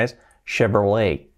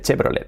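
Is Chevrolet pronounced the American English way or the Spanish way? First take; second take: American; Spanish. First: It is pronounced in a French-like American English way. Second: It is pronounced literally, the Spanish way. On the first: "la pronunciación viene más del francés, aunque es marca americana" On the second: "Aquí decimos literal Chevrolet, así, totalmente"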